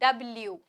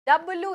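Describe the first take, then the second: First: It ends in a 'blyoo' sound. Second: It ends in a plain 'bloo' sound. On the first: The speaker calls it right. "नहीं डब्ल्यू" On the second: The speaker calls it wrong. "डब्लू नहीं"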